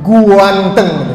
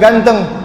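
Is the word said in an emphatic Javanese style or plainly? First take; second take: emphatic; plain. First: The word is stretched with an emphatic 'gua' onset. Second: The word is said plainly, without an extra glide. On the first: "Kalau orang Jawa bilang" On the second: "bukan ganteng"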